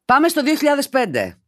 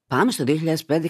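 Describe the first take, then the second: First: High, ringing announcement; raised, theatrical kickoff; excited announcement. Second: Said in the usual way. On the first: Acted. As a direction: launch it like a big flashback. Announces the story, then reads again.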